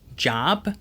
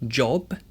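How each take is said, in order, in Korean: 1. 모음은 열린 미국식 'ah' 소리입니다. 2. 모음은 둥근 영국식 'o' 소리입니다. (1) "job, bottle 이라고 했던 게" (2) "이런 식으로 바뀐다고"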